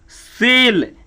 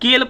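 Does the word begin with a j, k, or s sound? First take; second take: s; k. First: The word begins with an s sound. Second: The word begins with a k sound. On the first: The speaker calls it right. "इसका होगा सी ई से से" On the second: The speaker calls it wrong. "ये सब गलत है"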